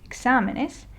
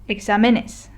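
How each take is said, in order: First: The stress falls before the next-to-last syllable. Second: The stress falls on the next-to-last syllable. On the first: The speaker calls it right. "it fell into the no rules group of words" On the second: The speaker calls it wrong. "we would have to stress this syllable because that is the next to last"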